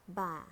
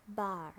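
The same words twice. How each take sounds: First: "bar" with a British silent R; British "bar", end on open ah; British accent. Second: "bar" ending in an American R; American "bar", curl the final R; American accent. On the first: Teacher models bar for learners, British accent. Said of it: "in British English". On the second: Teacher models bar for learners, American accent. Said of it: "R in American English". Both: Shown as a demonstration.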